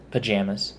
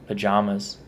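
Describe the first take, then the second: First: "pajamas" said puh-JAM-uz; pa-JAM-as pronunciation. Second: "pajamas" said puh-JAH-muz; pa-JAH-mas pronunciation. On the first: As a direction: middle vowel of "pajamas" as in "jam". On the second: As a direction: middle vowel of "pajamas" as in "father". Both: Shown as a demonstration. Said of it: "pajamas is how I say it".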